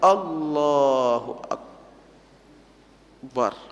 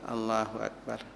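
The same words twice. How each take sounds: First: It is said forcefully and drawn out. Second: It is said weakly, with little energy. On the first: Other people are watching the person pray. "ketika ada orang" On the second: The person is praying alone. "kalau surang lemah tuh"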